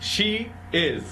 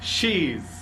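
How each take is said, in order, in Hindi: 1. दोनों शब्द पूरे और अलग-अलग बोले जाते हैं। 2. दोनों शब्द मिलकर एक छोटे से अक्षर में बोले जाते हैं।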